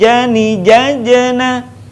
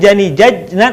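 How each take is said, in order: First: The stopped j sound bounces with a slight release. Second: The stopped j sound is held without bouncing. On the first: The speaker calls it right. "Ketika mati suaranya mantul, tapi jani jajena" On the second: The speaker calls it wrong. "bukan jani jajna"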